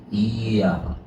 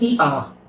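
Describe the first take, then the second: First: The first vowel glides straight into the second. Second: The two vowels are split by a clear break. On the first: The speaker calls it right. "안 끝낸 상태에서 자연스럽게 바로 아로 넘어가야 돼요" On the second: The speaker calls it wrong. "끝내면 이, 아"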